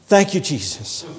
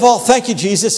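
First: It is said with subdued, low energy. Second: It is said with exuberant, high energy.

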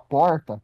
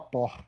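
First: It has his own strongly pulled R. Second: It is said with a carioca R.

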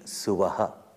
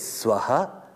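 First: The word is said with three syllables. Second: The word is said with two syllables. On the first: This is the form used when chanting the Yajurveda. "in chanting Suvaha" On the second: This is the plain form of the word. "the word is Swaha"

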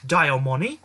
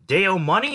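First: The name is said in a British accent. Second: The name is said in a plain American accent.

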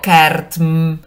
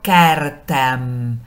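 First: The final m follows the t directly. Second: An e vowel comes before the final m. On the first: The speaker calls it wrong. "No digo kertm" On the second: The speaker calls it right. "digo kertem. La vocal de enlace es una E"

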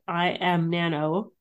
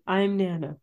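First: The start is said as two separate syllables. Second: The start is said as one contracted syllable. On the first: The speaker calls it wrong. "I'm pronouncing it I am Nano" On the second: The speaker calls it right. "I should be saying I'm Nano"

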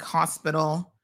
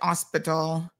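First: The word begins with an audible H sound. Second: The word begins without any H sound. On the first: "like words like hospital" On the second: "They'll say hospital"

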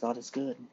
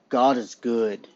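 First: It is said in a plain, casual way. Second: It is said forcefully, with strong emphasis. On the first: It is merely said. "I didn't just say, you know what, guys" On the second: It is declared.

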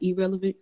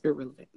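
First: The first syllable sounds like 'ee'. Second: The first syllable is a clear, pushed 'ir'. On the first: The speaker calls it wrong. "it sounds like I said E" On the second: The speaker calls it right. "I just have to push that out"

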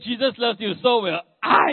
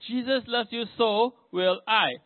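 First: It is said in an angry, harsh tone. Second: It is said in a kind, gentle tone.

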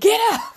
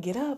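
First: It is said in a stern, commanding tone. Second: It is said in a calm, gentle tone.

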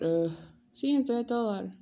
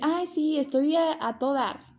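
First: It sounds reluctant and annoyed. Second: It sounds cheerful and sincere.

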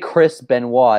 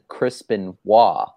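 First: The name is said at a normal, quick pace. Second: The name is said at a slower pace. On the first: "I didn't say Chris Benoit" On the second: "He just said it slower"

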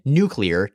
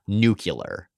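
First: The word is said as new-clee-er. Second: The word is said as new-cue-ler. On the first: This is the way the children said it. The speaker calls it right. "we said nuclear" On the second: This is the way a mocked public figure said it. The speaker calls it wrong. "not nuclear"

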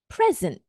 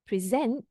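First: The stress is on the first syllable. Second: The stress is on the second syllable. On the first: It is a noun: a gift. "if it's a noun" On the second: It is a verb: to show or give formally. "if it's a verb"

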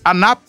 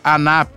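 First: It ends cleanly on the consonant p. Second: An extra vowel is added after the final p.

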